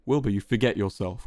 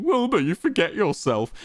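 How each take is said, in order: First: Understated, terse rebuke; spat. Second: High-pitched mocking imitation. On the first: Quackity rebuking Wilbur, tersely spat. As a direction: put him in his place. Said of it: "Quackity spat". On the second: Wilbur throwing Quackity's words back, mocking his intonation. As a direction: parrot it back in a silly higher voice. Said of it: "mocking Quackity's intonation". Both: A narrator's reading.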